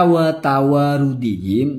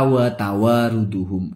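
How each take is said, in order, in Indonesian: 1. Akhirannya dibaca dengan vokal i, -dihim. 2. Akhirannya dibaca dengan vokal u, -duhum. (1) "ini mestinya dibaca wa tawarudihim" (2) "Lalu dibaca wa tawaruduhum"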